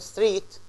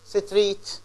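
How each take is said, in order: First: The consonant cluster is said without an extra vowel. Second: A short vowel is inserted into the consonant cluster. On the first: The speaker calls it right. "instead of saying" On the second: The speaker calls it wrong. "or street ... And this is wrong"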